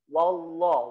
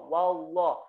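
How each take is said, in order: The two takes are said the same way.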